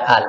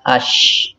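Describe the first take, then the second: First: The article is said with a clear l sound. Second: The l merges into a doubled sh sound. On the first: The speaker calls it wrong. "tidak dibaca al" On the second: The speaker calls it right. "melainkan dibaca ash"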